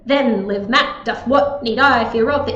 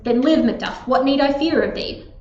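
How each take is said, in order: First: Stress falls on every first syllable. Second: Stress falls on every second syllable. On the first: The speaker calls it wrong. "if I tried to do the opposite" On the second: The speaker calls it right. "That's how the stress naturally falls in the line"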